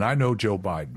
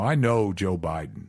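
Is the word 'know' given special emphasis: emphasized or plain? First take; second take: plain; emphasized. First: The sentence is said plainly, without special inflection. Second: The sentence is said with a marked inflection. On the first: The speaker knows who the person is. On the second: The speaker claims a personal friendship.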